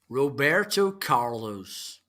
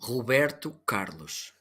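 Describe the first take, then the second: First: It is said in an English accent. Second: It is said in the speaker's own Portuguese accent. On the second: "first, in my Portuguese"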